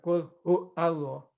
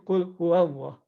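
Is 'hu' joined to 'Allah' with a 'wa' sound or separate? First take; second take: separate; joined. First: 'Hu' and 'Allah' are said apart, without 'wa'. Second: 'Hu' links into 'Allah' through a 'wa' sound. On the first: The speaker calls it wrong. "Bukan qul hu Allah" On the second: The speaker calls it right. "tapi qul huwallah"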